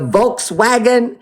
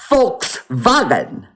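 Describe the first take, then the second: First: The word begins with a V sound. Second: The word begins with an F sound. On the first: The speaker calls it wrong. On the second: The speaker calls it right.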